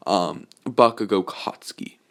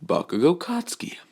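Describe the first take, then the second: First: Said in the usual way. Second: High, whispered full name; menacing whisper. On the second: Acted. Izuku coldly naming his rival, whispered. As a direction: hiss the full name like a threat.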